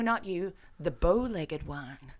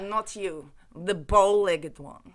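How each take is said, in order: First: It is said in the speaker's ordinary accent. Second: It is said in a put-on Russian accent.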